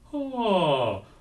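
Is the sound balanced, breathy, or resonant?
resonant. The onset is balanced with added ringing resonance. The speaker calls it right. "add a little bit of resonance"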